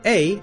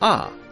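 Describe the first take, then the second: First: The vowel is a long 'ay' sound. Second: The vowel is an open 'ah' sound. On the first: "Sometimes we say A as A" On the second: "sometimes we say A as Ah"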